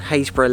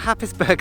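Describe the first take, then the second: First: The name begins with a 'hays' sound. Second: The name begins with a 'happ' sound. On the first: The speaker calls it right. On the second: The speaker calls it wrong.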